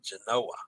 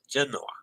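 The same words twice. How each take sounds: First: The stress is on the second syllable. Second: The stress is on the first syllable. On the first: "or the second syllable" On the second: "Is the emphasis on the first syllable"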